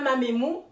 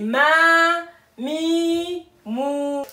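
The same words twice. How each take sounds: First: The vowels are clipped short. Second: The vowels are drawn out long. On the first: The speaker calls it wrong. "C'est pas" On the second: The speaker calls it right. "mais c'est"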